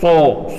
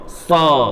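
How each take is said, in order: First: It is said with the lips pushed forward and rounded. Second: It is said with the lips neutral and unrounded. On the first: The speaker calls it wrong. "Nggak usah sambil mencucu. ... Ini hindari" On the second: The speaker calls it right. "kita mulutnya biasa, ... istilahnya netral"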